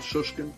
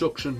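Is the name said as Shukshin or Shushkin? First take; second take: Shushkin; Shukshin. First: The sh sound comes before the k sound. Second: The k sound comes before the sh sound. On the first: The speaker calls it wrong. "not Shushkin" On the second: The speaker calls it right. "it's Shukshin"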